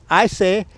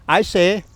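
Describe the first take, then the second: The two takes are said the same way.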